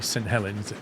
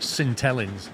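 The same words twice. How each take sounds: First: The name is said the standard, non-local way. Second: The name is said the way locals say it. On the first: "people from Saint Helens don't say Saint Helens" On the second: "They call it Saint Helens"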